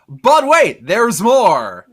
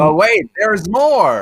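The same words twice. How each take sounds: First: It is said with more passion. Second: It is said plainly, without much passion.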